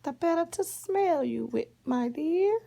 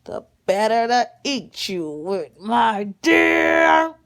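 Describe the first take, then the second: First: High-pitched fake granny, lilting upward; crafty high grandma disguise; wolf posing as grandma. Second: Loud menacing wolf, building to a shout; storybook wolf roar; big bad wolf. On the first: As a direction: answer sweetly in a put-on high voice. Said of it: "The wolf dressed up like her grandma". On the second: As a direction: drop the disguise and pounce on the last word. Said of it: "And the wolf says".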